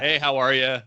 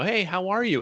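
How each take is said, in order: First: It sounds offhand, just making conversation. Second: It sounds warm and sincerely interested.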